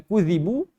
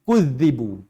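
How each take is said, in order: First: The middle consonant is short and single. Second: The middle consonant is lengthened and doubled. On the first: "satu dibaca dengan kudzibu" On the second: "satu lagi dibacakan dengan sabdu"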